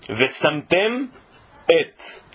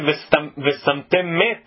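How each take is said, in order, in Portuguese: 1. A segunda palavra começa direto com uma vogal. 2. O som de m se liga à segunda palavra. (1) "Também para não engolir" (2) "porque parece Vesamtem met"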